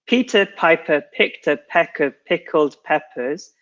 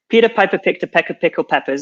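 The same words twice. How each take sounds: First: It is said slowly. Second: It is said fast.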